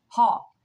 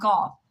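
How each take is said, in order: First: The name begins with an H-like sound. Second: The name begins with a hard G sound. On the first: The speaker calls it right. "That is the way the Dutch pronounce his name. They don't pronounce the G" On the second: The speaker calls it wrong. "not Gall"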